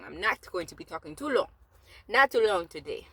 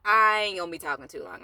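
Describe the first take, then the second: First: Playful, badly faked Jamaican accent; mock Jamaican accent. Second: Said in the usual way. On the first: Vlogger promising viewers a short talk, mock Jamaican accent. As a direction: put on a silly, wobbly Jamaican accent. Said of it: "That's me doing a, a whack accent".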